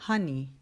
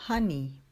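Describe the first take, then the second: No difference in how they are said.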